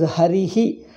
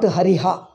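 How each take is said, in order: First: The final echo syllable is 'hi'. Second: The final echo syllable is 'ha'. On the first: The speaker calls it right. "you pronounce as Harihi" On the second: The speaker calls it wrong. "not Hariha"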